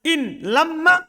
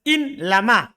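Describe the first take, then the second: First: The m sound is held long and doubled. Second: The m sound is short, not doubled. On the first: The grammatical analysis is different. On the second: This is the light reading of the verse. "Dibaca ringan ya"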